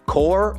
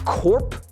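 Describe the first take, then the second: First: The word ends without a p sound. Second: The word ends with a p sound. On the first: It names a military unit. The speaker calls it right. "which is pronounced core" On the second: It sounds like part of corporation. The speaker calls it wrong. "But I pronounced it corp, as in like corporation"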